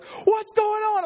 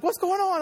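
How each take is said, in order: First: Very high, drawn-out mock panic; wife in overload. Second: High-pitched imitation of a worried wife. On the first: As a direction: mimic a frantic wife, stretching the words. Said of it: "she drives into overload". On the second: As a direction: mimic your wife asking anxiously on a call. Wife phones during the emergency.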